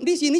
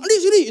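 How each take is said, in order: First: It is said in a calm voice. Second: It is said in an angry voice.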